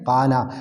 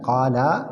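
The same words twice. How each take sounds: First: The vowel is kept short. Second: The vowel is held long. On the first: The speaker calls it right. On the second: The speaker calls it wrong.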